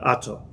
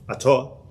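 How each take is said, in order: First: The stress is on the first syllable. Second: The stress is on the last syllable. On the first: The speaker calls it wrong. "not Ato" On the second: The speaker calls it right. "It is Baruch Ato"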